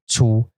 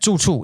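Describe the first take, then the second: First: The syllable has a high level pitch. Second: The first syllable has a sharply falling pitch. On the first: It means pig. "pig is the first tone" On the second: It means a place to live. "so it's it's fourth tone, fourth tone"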